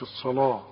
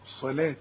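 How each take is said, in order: First: The consonant is pronounced heavy and emphatic. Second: The consonant is pronounced light and thin. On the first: The speaker calls it wrong. "ما تقولش الصلاه لا، لانك اذا قلت الصلاه تقول لي الصلاه طا طا" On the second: The speaker calls it right. "لا الصلاه تا"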